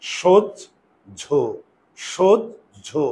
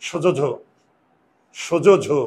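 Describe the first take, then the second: First: সোজঝো held very slowly, stopping on the জ; correct pronunciation. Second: সোজোঝো with a full vowel after জ, no stop; the mistaken reading সোজোঝো, running on; wrong pronunciation. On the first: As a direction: stop on জ and stretch সোজঝো. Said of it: "এখানে উচ্চারণটা থামতে হবে". (সঠিক উচ্চারণ সোজঝো, থেমে থেমে) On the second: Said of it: "হসন্ত না দাও, তাহলে উচ্চারণ হবে". (ভুল উচ্চারণ সোজোঝো) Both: Shown as a demonstration.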